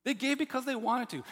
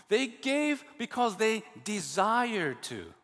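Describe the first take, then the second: First: "They gave because they wanted to" pressed word by word; emphatic repeat. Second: Slow, "desired" weighted and drawn out; slow it right down and lean on "desired"; slow emphatic restating. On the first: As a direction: hammer home the point. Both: Shown as a demonstration. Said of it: "There's an emphasis on the fact".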